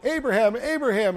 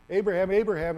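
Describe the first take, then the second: First: Calling out. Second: Said in the usual way. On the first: Retold or imitated. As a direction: call the name out loud and higher, twice. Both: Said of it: "and it cries out".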